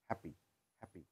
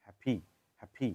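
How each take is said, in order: First: হ্যাপি with a flat unaspirated p; হ্যাপি said hapi, American way; American happy. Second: হ্যাপি with an aspirated p; হ্যাপি said hap-hi, British way; British happy. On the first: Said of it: "আমেরিকানরা বলে". (American উচ্চারণে হ্যাপি) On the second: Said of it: "ব্রিটিশরা বলে". (British উচ্চারণে হ্যাপি) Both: Shown as a demonstration.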